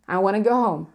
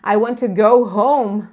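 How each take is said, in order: First: The t drops and to becomes a weak schwa. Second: Want and to are said fully, with a clear t. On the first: "o t some, ... é o schwa" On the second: "em vez de eu falar"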